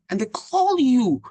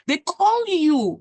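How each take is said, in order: First: Rising amazement, slowed down; emphatic. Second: Higher and louder, slowed down; more emphatic. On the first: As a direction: stress how surprising it is. Amazed at getting job calls. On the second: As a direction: punch it harder the second time. Repeats it with more force. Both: Real, not acted.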